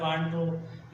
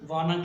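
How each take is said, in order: First: It is said as two full words. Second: It is reduced to one blended word. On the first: This is the form used in writing. "वांट टू in writing में होता है" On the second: This is the form used in speech. "Spoken में वाना कहते हैं"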